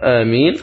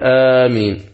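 First: The first vowel is held short. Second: The first vowel is drawn out long. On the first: "يجوز القصر" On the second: "ويجوز المد فيها"

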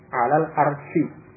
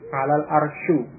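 First: The last word ends with an 'i' vowel. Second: The last word ends with a 'u' vowel. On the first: The speaker calls it right. "huruf akhirnya dikasrah" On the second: The speaker calls it wrong. "huruf akhirnya dengan dhamma, khata'un, salah"

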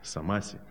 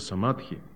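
First: The word is said with an 's' sound. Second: The word is said with a 'dh' sound. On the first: Someone else pronounces it this way. "как Молдашев пишет, самаси почему-то он говорит" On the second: This is how it is called in Sanskrit. "на санскрите называется самадхи"

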